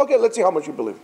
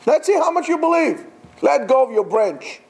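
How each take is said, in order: First: Said in the usual way. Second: Higher teasing challenge; challenging repeat. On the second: Retold or imitated. God challenges the climber, higher and teasing. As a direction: dare him to prove it. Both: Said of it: "repeated line".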